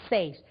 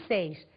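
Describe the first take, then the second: The two takes are said the same way.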